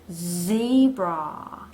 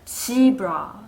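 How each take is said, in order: First: It starts with a buzzing, vibrating z sound. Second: It starts with a j-like sound, no buzz. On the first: The speaker calls it right. "떨리게 zebra" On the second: The speaker calls it wrong. "한국말의 지읒으로 발음을 잘못할 수가 있어요 ... 떨림이 들리지 않죠"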